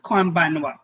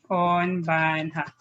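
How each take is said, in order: First: The last syllable is pronounced 'wa'. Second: The last syllable is pronounced 'ha'. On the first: The speaker calls it right. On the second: The speaker calls it wrong.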